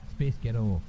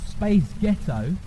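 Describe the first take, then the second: First: Muddled put-on accent on "Space Ghetto"; botched accent demo. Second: Lightly put-on American accent. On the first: Trying the trick on an audience, in the wrong accent. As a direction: attempt an accent and miss it. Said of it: "that's the wrong accent". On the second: Showing an audience how accents blend, in an American accent. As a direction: demonstrate an American accent on "Space Ghetto". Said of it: "in an American accent". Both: Shown as a demonstration.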